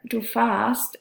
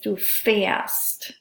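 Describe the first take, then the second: First: The stem vowel is a plain open a. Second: The stem vowel is the umlaut ä sound. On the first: The speaker calls it wrong. "instead of" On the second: The speaker calls it right. "it's du fährst. Notice that pronunciation change"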